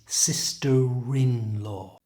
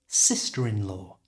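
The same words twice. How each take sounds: First: It is said slowly, with the linking drawn out. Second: It is said quickly, at a natural speaking pace. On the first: "we move the R from the end of sister to the front of the I in" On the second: "at normal speed"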